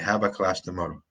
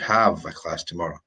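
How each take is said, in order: First: The word have is said with a B sound. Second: The word have is said with a V sound. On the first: The speaker calls it wrong. "No, you don't have a class tomorrow" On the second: The speaker calls it right. "You have a class tomorrow. V, v"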